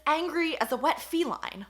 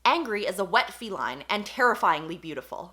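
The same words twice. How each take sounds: First: "angry as a wet feline." said slowly and higher, every word spelled out; slow mocking emphasis. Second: Said in the usual way. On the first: Shown as a demonstration. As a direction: savour "angry as a wet feline." as if it's absurd. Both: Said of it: "but it's".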